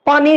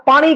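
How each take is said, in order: First: ਪਾਣੀ with a plain dental n; wrong pronunciation. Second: ਪਾਣੀ with retroflex ṇ; correct pronunciation. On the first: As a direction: say ਪਾਣੀ as "pani", no retroflex ṇ. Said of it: "ਨਹੀਂ ਕਹਿਣਾ". (ਪਾਣੀ ਵਿੱਚ ਣ ਦੀ ਥਾਂ ਨ ਬੋਲੋ) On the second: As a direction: curl the tongue back for ṇ in ਪਾਣੀ. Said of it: "ਕਹਿਣਾ ਹੈ". (ਪਾਣੀ ਵਿੱਚ ਸਾਫ਼ ਣ ਬੋਲੋ) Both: Shown as a demonstration.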